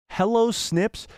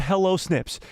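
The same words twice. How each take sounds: First: High, disbelieving Hello Snips; disbelieving quote. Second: Said in the usual way. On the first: Real, not acted. Streamer replaying the line in disbelief, surprised. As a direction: repeat it as if you can't believe your ears. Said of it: "I thought I was hearing things". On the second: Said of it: "He literally said".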